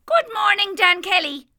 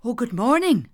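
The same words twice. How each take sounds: First: High sprightly leprechaun voice; a cheeky little fairy man greeting. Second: Said in the usual way. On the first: A narrator's reading. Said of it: "said the leprechaun". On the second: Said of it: "said Dan".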